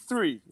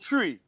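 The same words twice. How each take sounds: First: The word begins with a 'th' sound. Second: The word begins with a plain 't' sound. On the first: "I could enunciate the words three three very well" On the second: "T R E E"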